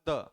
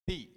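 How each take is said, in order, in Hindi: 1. यह शब्द छोटे, हल्के स्वर के साथ बोला जाता है। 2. यह शब्द लंबे 'ee' स्वर के साथ बोला जाता है। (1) "अगर द को किसी भी व्यंजन से पहले आप लगा रहे हैं" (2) "अगर हम इसे किसी भी स्वर के साथ लगाते हैं"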